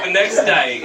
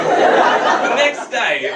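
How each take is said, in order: First: Said in the usual way. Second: Drawn out. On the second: Shown as a demonstration.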